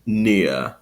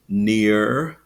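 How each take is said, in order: First: "near" as NEE-uh; received pronunciation. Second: "near" with a rounded American R; rhotic near. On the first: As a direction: end "near" on a schwa, no R. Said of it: "follow the received pronunciation". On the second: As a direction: finish "near" on a full R. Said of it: "with that rounded R sound". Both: Shown as a demonstration.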